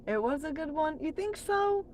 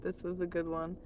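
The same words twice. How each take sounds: First: Much higher, rising questioning voice; surprised question. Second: Said in the usual way. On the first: Real, not acted. Streamer questions a viewer's compliment, high surprised question. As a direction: lift it right up in doubtful surprise.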